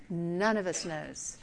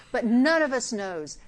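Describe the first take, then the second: First: "None of us knows" lower, softer and slowed; quiet repeat. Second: Said in the usual way. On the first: Shown as a demonstration. Preacher driving the point home, soft slow echo.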